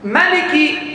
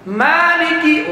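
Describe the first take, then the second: First: The vowel after the m is short. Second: The vowel after the m is long. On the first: It follows another traditional reading. "Kalau mimnya pendek Nafi" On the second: It follows one traditional reading. "oh dia pakai kaedah Asim"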